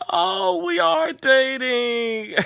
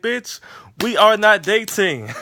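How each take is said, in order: First: Much higher, slow and drawn-out, leaning on "are" in "we ARE dating"; stress on are. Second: "are" punched loud and high, a blunt "we ARE not dating"; stress on are. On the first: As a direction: stretch it out high and teasing, landing on "are". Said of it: "And Issa's like". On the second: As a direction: hit "are" hard, loud and firm, like setting the record straight. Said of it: "and Molly's like". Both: Retold or imitated.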